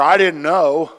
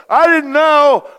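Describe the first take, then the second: First: Put-on loud, high child's plea; kid excuse. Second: Put-on very high, loud, drawn-out child's whine; whiny kid. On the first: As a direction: play the caught kid pleading innocence. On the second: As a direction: stretch the excuse like a guilty kid. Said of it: "you go".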